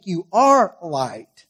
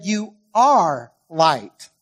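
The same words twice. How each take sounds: First: "You are light" slow and firm; stress on you. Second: "You are light" slow, leaning on the words; slow, weighty "You are light"; stress on you. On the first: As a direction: press each word of "You are light". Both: Shown as a demonstration. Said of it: "now I stressed it while I was reading".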